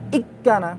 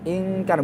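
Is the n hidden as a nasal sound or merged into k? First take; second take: merged k; hidden nasal. First: The n is pressed into a doubled k. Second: The n is a nasal hum without pressing. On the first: The speaker calls it wrong. "Kalau ditekan kan ikkana" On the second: The speaker calls it right. "tanpa ditekan"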